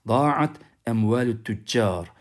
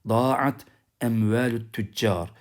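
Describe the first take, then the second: No difference in how they are said.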